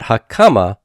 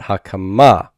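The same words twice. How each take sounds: First: "hakama" with KA punched, final MA light; stress on middle syllable. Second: "hakama" with a strong, long final MA; stress on final syllable. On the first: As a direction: hit the KA in "hakama". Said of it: "Not hakama, but hakama". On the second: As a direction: lean on the last syllable of "hakama". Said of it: "but hakama". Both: Shown as a demonstration.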